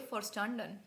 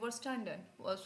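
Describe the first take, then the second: First: The word begins with an f sound. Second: The word begins with a v sound. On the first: The speaker calls it right. "व वी को फा ही बोलोगे" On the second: The speaker calls it wrong. "Sorry वर नहीं फर"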